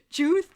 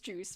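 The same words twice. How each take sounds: First: The word is slurred with an exaggerated lisp-like sound. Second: The word is pronounced clearly with no lisp. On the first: "I exaggerated" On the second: "even though it's juice"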